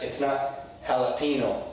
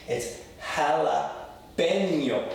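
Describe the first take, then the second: First: Jalapeno with an English hard n; wrong jalapeno. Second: "jalapeño" slowly with a Spanish ñ, pe-nyo; right jalapeño. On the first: Teacher showing students the wrong way, flat English jalapeno. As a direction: say "jalapeno" the gringo way, plain n. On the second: Teacher correcting students, slow careful Spanish jalapeño. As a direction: stretch out "jalapeño" with a clear nyo sound. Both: Shown as a demonstration.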